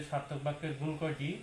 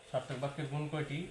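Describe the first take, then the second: No difference in how they are said.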